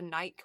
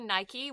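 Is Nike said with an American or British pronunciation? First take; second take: British; American. First: It is said with a British pronunciation. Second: It is said with an American pronunciation. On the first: "which is the British version" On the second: "which is the American version"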